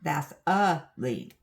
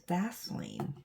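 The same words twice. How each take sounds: First: "Vaseline" slowly broken up, loud UH in the middle; VAS... UH... LEEN for "Vaseline", drawn out; exaggerated extra syllable. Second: "Vaseline" as VAS-leen, no middle uh; two-syllable pronunciation. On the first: Showing the mistaken habit, Vaseline with a loud uh. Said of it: "There is no uh in there". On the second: Correcting an old habit, Vaseline without the uh. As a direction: say "Vaseline" in two beats, dropping the uh. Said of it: "uh in there". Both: Shown as a demonstration.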